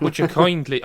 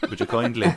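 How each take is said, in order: First: Put-on louder, higher second stab at the Bioshock accent; self-conscious attempt at a put-on accent. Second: Bioshock line in the speaker's own accent; unforced native accent for the Bioshock catchphrase; natural accent. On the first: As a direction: try the game's accent, pushed up and louder. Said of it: "couldn't do your accent". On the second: Shown as a demonstration. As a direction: say it easily in your natural accent. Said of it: "when it's your natural accent".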